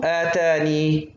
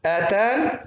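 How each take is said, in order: First: Slow آتاني ending in long "ee"; stop with yaa. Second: آتان ending on bare "n", rising; stop without yaa. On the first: Teacher showing the second stopping option, آتاني with long yaa. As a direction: hold the final yaa of آتاني. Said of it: "وقفًا". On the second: Teacher showing the first stopping option, آتان without final yaa. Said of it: "تقرأ". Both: Shown as a demonstration.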